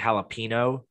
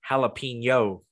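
First: The ending is a plain 'no' sound. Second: The ending is a 'nyo' sound. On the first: The speaker calls it wrong. "They say jalapeno, and it drives me" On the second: The speaker calls it right. "It's jalapeno"

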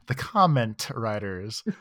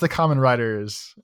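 First: It is said slowly with every syllable clear. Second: It is said quickly with the syllables blurred. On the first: "always very good about being, like, the comment writers" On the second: "how fast I talk and my mumbly mouth"

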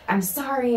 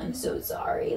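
First: It is said in an upset, ashamed tone. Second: It is said lightly, with laughter.

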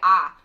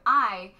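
First: The vowel is a flat, single ah sound. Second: The vowel glides, as in the full I. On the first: It is said in the middle of a sentence. "in the middle of a sentence, you say ah" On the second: It is said at the start of a sentence. "You start with I"

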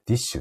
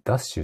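First: The name is pronounced 'disshu'. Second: The name is pronounced 'dasshu'. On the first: The speaker calls it right. "ディッシュって読むんだね" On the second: The speaker calls it wrong. "ダッシュじゃなくて"

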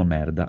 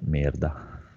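First: It is said the Forlì way. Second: It is said the Cesena way.

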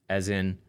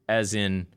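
The two takes are said the same way.

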